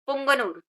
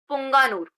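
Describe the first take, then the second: First: पुंगनूर, बीच का ग छोटा और जल्दी; पुंगनूर में पुंग-नूर छोटा रखें; सुधरा उच्चारण. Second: पुंगानूर, बीच में लंबा आ खींचकर; पुंगानूर में पुंगा को लंबा बोलें; पहला उच्चारण. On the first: (पुंगनूर, छोटे अ के साथ) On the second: (पुंगानूर, लंबे आ के साथ) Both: Shown as a demonstration. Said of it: "ठीक है, पुंगनूर".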